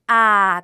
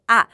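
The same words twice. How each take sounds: First: The vowel is held long. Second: The vowel is cut short. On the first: "장모음 길게" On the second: "단모음은 짧게"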